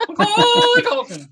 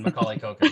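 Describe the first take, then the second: First: Loud, very high mock bird scream; screaming macaw. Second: Said in the usual way. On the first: Host playing the macaw's evolution, loud screeched squawk. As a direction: shriek the name like an evolved bird Pokemon. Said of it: "macaw would probably scream its friggin' head off". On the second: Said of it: "It's, it's his evolution".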